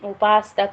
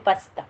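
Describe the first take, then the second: First: The second vowel is long. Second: The second vowel is short. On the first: The speaker calls it wrong. "ఉపాస్త కాదు" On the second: The speaker calls it right. "దీర్ఘం లేదు"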